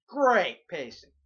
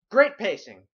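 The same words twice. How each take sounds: First: Slow sarcasm. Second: Sarcastic. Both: Shown as a demonstration.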